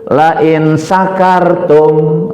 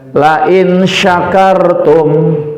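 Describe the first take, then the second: First: The last word has a plain s sound. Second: The last word has an sh sound. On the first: It means if you get drunk. The speaker calls it wrong. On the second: It means if you are grateful. The speaker calls it right.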